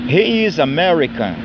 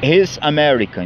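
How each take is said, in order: First: He is is said as two full words. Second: He is is contracted into one syllable.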